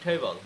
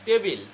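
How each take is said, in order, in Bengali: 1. প্রথম ধ্বনিটি aspirated t। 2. প্রথম ধ্বনিটি আনঅ্যাসপিরেটেড t।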